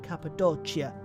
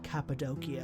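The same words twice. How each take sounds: First: It uses an Italian-like ecclesiastical pronunciation. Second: It uses a Greek pronunciation. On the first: "more ecclesiastical, which is generally very Italian-like pronunciation" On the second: "even in Greek, it's like"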